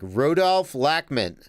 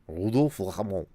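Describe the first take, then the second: First: The name is said with an American English accent. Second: The name is said with a French accent. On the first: "I should probably just be like" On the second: "it's probably worse if I try to say it with a French accent"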